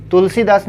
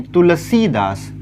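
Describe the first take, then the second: First: तुलसीदास with a quick short si in the middle. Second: तुलसीदास with a held "see" in the middle; long sī. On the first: Teacher showing students the misspelling, short-i तुलसीदास. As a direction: hurry over the सी of तुलसीदास. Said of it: "तुलसीदास नहीं". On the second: Teacher correcting it for students, long-ī तुलसीदास. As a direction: stretch the सी of तुलसीदास. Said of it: "तो बड़ा ई लगा दिया". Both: Shown as a demonstration.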